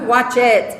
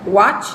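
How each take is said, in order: First: The ending is an extra syllable, like 'id'. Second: The ending is a short t sound only. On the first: The speaker calls it wrong. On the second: The speaker calls it right.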